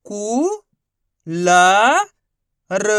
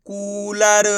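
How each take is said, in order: First: कू, ला, र long and separate, ला louder; letter by letter. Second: कूलर as one stretched word; letters blended. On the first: Teacher demonstrating for pupils, letter by letter. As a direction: sound out कू... ला... र with pauses. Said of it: "एक ही अक्षर का उच्चारण करके". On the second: Teacher putting the letters together, blended. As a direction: join कू, ला, र without pauses. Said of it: "तो मिलके बन जाएगा". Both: Shown as a demonstration.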